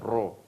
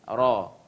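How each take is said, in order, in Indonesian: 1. Bibir didorong ke depan dan dibulatkan. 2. Lidah bergetar dan bibir tetap tidak membulat. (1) "bukan ro dengan mu, mu, dengan mengunyungkan mulut" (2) "lidah yang akan bermain di dalam, yang goyang mendekati langit-langit depan atas"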